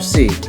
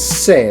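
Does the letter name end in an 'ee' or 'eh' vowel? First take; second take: ee; eh. First: The letter name ends in an 'ee' vowel. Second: The letter name ends in an 'eh' vowel. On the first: "that's how you say it in English" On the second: "Now in Spanish it's se"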